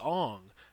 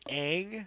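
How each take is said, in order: First: The name has an 'ah' vowel, like 'on'. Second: The name has the vowel of 'bang'. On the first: This is how the name is said in the movie. The speaker calls it wrong. "who the fuck is Ong?" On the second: This is how the name is said in the show. The speaker calls it right. "Oh, you mean Aang?"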